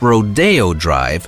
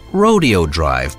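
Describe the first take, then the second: First: Rodeo is said with a Spanish-style pronunciation. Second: Rodeo is said with an English-style pronunciation. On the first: This is the street's actual name. The speaker calls it right. "There's a reason why it's called Rodeo Drive" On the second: This is not what the street is called. The speaker calls it wrong. "and not Rodeo Drive"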